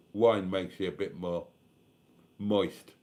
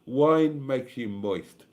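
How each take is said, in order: First: Said in the usual way. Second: "Wine" leaned on, "Wine makes you moist" drawn out slowly and a little louder; slow, weighty repeat. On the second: Shown as a demonstration. Streamer repeating his wine joke to viewers, slow and emphatic. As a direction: savour every word of it, teasing.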